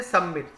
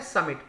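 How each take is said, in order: First: सबमिट wrongly said with a B after the first syllable; mispronounced सबमिट. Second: समिट said as "sum-it", no B; correct pronunciation of समिट. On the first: Teacher mimicking students' misreading, mispronounced सबमिट with a B. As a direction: say सबमिट with an extra B sound. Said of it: "इसे गलत पढ़ते हैं". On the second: Teacher correcting students' misreading, समिट with silent B. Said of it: "वी silent है". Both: Shown as a demonstration.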